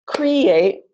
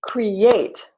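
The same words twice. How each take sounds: First: "create" with the first syllable punched and long; stress on first syllable. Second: "create" with the second syllable long and strong; stress on second syllable. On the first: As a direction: stress the CRE in "create", CRE-ate. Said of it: "or create". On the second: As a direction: stress the ATE in "create", cre-ATE. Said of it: "Answer is create". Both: Shown as a demonstration.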